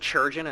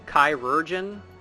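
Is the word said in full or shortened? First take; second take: shortened; full. First: The word is clipped to fewer syllables. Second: The word is said in full, every syllable. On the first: "I'm saying churgeon" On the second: "I'm not pronouncing that word like that"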